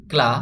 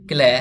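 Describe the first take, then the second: First: ক্লা with an open aa; straight "a" vowel. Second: ক্ল্যা with a tilted ae; slanted "ae" vowel. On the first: Teacher introduces CLA to learners, ক্লা with straight aa. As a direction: say ক্লা to rhyme with "spa". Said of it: "আকারের মতো". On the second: Teacher gives CLA's other reading, ক্ল্যা with slanted ae. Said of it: "একটু কাত করে". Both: Shown as a demonstration.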